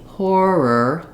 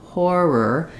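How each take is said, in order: Both takes have the same delivery.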